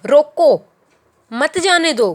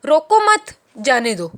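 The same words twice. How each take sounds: First: Loud "रोको", pause, then "मत जाने दो" as one phrase; pause after रोको. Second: "रोको मत" run together, then "जाने दो"; pause after मत. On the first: Teacher showing the stop-him sense, pause after "रोको". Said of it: "इस लाइन को टू वे में". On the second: Teacher reading the line without comma, "रोको मत" as one phrase. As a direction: join "मत" to "रोको" and break before "जाने दो". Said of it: "कॉमा वगैरह नहीं लगा हुआ". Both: Shown as a demonstration.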